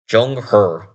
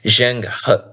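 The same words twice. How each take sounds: First: The name is said in a Chinese way. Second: The name is read in an English style. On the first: The speaker calls it right. "In Chinese, I think it would be pronounced something like Zheng He" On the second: The speaker calls it wrong. "it's not pronounced Zheng He"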